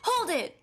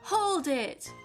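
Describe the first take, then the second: First: It is said very quickly, like Phoenix. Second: It is said slowly and chill, like Edgeworth.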